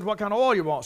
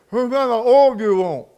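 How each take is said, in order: First: Said in the usual way. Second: Imitating a mechanic mumbling round a chaw, a bit louder; words mushed around a wad of tobacco; mouth full of tobacco. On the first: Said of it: "I didn't hardly understand what he said". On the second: Mechanic in the pit calls up, mumbling through tobacco. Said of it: "he had a big chaw of tobacco in his mouth".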